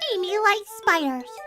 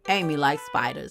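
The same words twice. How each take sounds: First: It is read in the speaker's normal voice. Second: It is read in a put-on hood-style voice.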